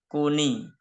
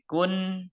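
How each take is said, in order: First: The syllable ends with an added 'ni' sound. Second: The syllable ends with a plain 'n' sound. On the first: "sekarang menjadi kuni" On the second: "Yang asalnya bunyi kun"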